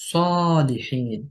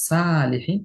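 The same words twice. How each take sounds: First: সলিহিন with a heavy, full-mouthed স and a dark vowel, said very slowly; heavy Arabic letter. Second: সালিহিন with a thin, light স and a bright open আ; light letter, wrong. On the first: Tajweed teacher showing students the correct heavy সলিহিন. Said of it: "যদি সদকে মোটা উচ্চারণ না করে". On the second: Teacher showing the wrong, light সালিহিন to students. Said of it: "যদি পাতলা করি". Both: Shown as a demonstration.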